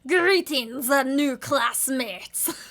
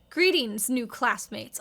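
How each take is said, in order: First: It is said in an imitation of Dexter. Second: It is said in her ordinary voice.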